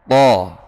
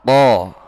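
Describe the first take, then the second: No difference in how they are said.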